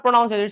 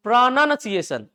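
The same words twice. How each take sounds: First: "pronunciation" as "pro-noun-see-ay-shun", loud; "pronunciation" built on the word "noun"; common mispronunciation. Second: "pronunciation" slowly as "pra-nan-see-ay-shun"; high, drawn-out "pronunciation" with "nun" in it; careful correct form. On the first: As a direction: put an ow sound into "pronunciation". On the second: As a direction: stretch each syllable of "pronunciation", no ow. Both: Shown as a demonstration. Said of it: "इस word का उच्चारण सही करना".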